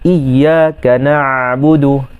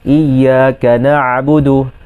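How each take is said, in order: No difference in how they are said.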